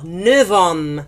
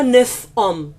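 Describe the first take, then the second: First: The end of neuf sounds like v. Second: The end of neuf sounds like f. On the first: The speaker calls it right. "il se prononce en tant que V" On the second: The speaker calls it wrong. "On ne dit pas neuf hommes"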